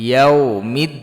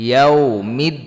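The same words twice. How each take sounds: Both takes have the same delivery.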